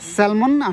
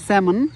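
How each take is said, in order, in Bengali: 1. শব্দটিতে L এর ধ্বনি উচ্চারিত হয। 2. শব্দটি থেকে L এর ধ্বনি বাদ পড়ে। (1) "এলটার উচ্চারণ হবে না" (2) "আসলে উচ্চারণটা হবে স্যামন"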